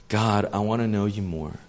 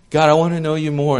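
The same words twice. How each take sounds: First: Sincere prayer. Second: Louder, higher, insistent demand; demanding prayer. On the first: Sincere prayer contrasted with demanding one. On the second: Preacher mocks a demanding prayer with insistent urgency. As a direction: pray like you're placing an order. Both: Shown as a demonstration.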